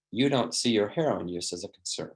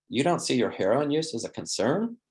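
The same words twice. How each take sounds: First: "You don't see your heroin use as a concern." falling on concern; falling statement tune. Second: "You don't see your heroin use as a concern?" rising on concern; rising question tune. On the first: Counselor reflecting a client's heroin use, falling tune. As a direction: say it as a calm statement, pitch dropping. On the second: Counselor questioning a client about heroin, rising tune. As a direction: ask it, voice lifting at the end. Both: Shown as a demonstration. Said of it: "Notice the inflection going down".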